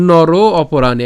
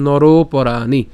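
First: নর অপরাণী as two separate words, louder; broken into words. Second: নর অপরাণী merged as "noroporaani"; fuse the two words with one long "ro"; joined up. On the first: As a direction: firmly split it, keeping the "o" that starts অপরাণী. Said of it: "একসাথে বললে কি বলেছিলাম". (নর অপরাণী আলাদা করে, জোরে) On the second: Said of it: "একসাথে বললে". (নর অপরাণী একসাথে জুড়ে) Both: Shown as a demonstration.

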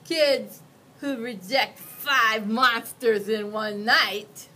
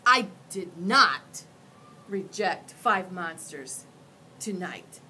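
First: Louder, slow ominous warning; monster warning. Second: "not" and "five" hit hard, louder and slow; indignant correction. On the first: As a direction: spell out the threat. Monster warns child. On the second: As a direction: cut him off insisting on "five". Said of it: "I interrupted". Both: Acted.

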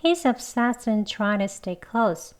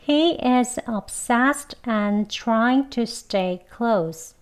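First: Connected speech with reduced small words; quick linked demo. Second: Slow, evenly spaced words, each fully sounded; slow careful demo. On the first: Teacher models the quick version for learners, words linked. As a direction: run the words together more quickly, still clear. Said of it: "빨리 두 번 해볼게요". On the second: Teacher repeats a sentence for learners, slowly and carefully. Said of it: "천천히 두 번 해볼게요". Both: Shown as a demonstration.

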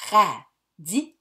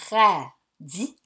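First: Radis punched louder in two beats; a louder ra-dis, clearly split; syllable beats. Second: Radis said slowly in two beats, ra-dis; syllable beats. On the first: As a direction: hit radis loud, ra-dis. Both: Shown as a demonstration. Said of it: "Alors, radis".

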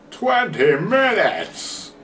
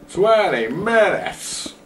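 First: "Twenty minutes!" drawn out slow and high; X Factor announcer voice. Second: "Twenty minutes!" stretched slow, high and loud; announcer hype on "Twenty minutes!"; X Factor announcer voice. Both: Shown as a demonstration. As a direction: boom "Twenty minutes!" like a TV talent show host. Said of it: "That was my X Factor voice".

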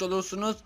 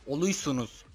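First: Said in the usual way. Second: "Oluysunuz" with y in place of the r; cutesy mispronunciation. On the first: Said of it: "Yalnız olursunuz değil". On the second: Shown as a demonstration. YouTuber correcting himself playfully for viewers, cutesy r-less "Oluysunuz". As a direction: say "Oluysunuz" babyishly, dropping the r for y. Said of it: "Yalnız olursunuz değil, oluysunuz".

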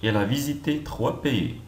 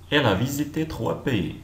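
No difference in how they are said.

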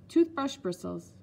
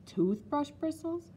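First: Said in the usual way. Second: High, drawn-out "Toothbrush bristles" as a question; incredulous cry. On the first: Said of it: "this time with no hesitation at all". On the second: A narrator's reading. Child doubts Nanny's explanation, crying it out incredulously. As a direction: echo "Toothbrush bristles" slowly, pitched up in disbelief. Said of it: "I cried".

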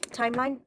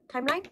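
First: Said in the usual way. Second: "Timeline?" with a rising questioning tune; "Timeline?" lifted up at the end, doubting it's right; unsure questioning. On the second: Shown as a demonstration. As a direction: ask "Timeline?" as if checking the word. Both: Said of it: "Is it timeline?".

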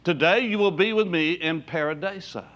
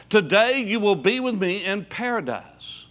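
First: "Paradiso" with an o ending, not "paradise"; "Paradiso" pronunciation. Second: Said in the usual way. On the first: Shown as a demonstration. Preacher giving the older word before the English: "Paradiso" said pa-ra-DAY-so.

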